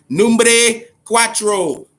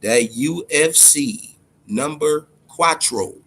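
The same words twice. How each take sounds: First: Slow, higher, louder drawn-out announcer call on "Numbre cuatro"; hyped announcer. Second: Said in the usual way. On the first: Real, not acted. Hyping the new UFC game to viewers, drawn-out announcer call.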